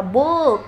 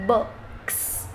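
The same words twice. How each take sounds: First: "book" with a long OO as in "boot"; long U mistake. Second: "Books" softly, short U and a long S ending. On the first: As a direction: stretch the vowel in "book" wrongly long. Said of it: "nó ra âm U dài đấy". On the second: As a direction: model "Books" with a brief lax vowel. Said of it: "từ U ngắn này". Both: Shown as a demonstration.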